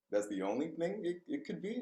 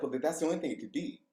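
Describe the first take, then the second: First: Softer, rising questioning repeat; incredulous echo. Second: Said in the usual way. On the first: Retold or imitated. Speaker answering school staff's accusation, incredulous. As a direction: echo it in disbelief, climbing high at the end.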